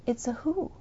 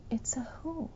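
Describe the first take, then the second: First: Said in the usual way. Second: Breathy whispered repeat. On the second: Real, not acted. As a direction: hush it to a whisper, letting it sink in.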